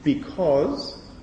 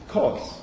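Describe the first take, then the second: First: The first syllable is fully pronounced. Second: The first syllable is dropped. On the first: The speaker calls it wrong. "not because" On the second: The speaker calls it right. "but cause"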